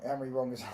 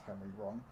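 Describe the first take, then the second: First: Said in the usual way. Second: Low, soft chuckle through the words; amused mock reading. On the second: Streamer mockingly rereads a chat comment, chuckling. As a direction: laugh it off quietly. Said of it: "That's fucking jokes".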